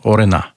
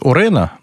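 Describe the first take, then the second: First: The stress falls on the last syllable. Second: The stress falls before the last syllable. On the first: The speaker calls it right. "ударение, последний слог" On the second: The speaker calls it wrong. "Ее все почему-то называют Орена"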